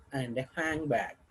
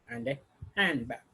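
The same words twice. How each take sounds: First: Handbag with a clear falling tone at the end. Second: Handbag said with a falling tone; falling tone again. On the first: Teacher showing the final fall on handbag. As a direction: let handbag fall to close the list. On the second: Teacher repeating the falling tone on handbag. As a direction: drop the pitch on handbag. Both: Shown as a demonstration. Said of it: "falling tone".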